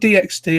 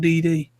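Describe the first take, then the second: First: The letter X is said between the Ds. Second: The letter X is left out between the Ds. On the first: The speaker calls it wrong. "It's not D X D" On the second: The speaker calls it right. "apparently, it's High School D D"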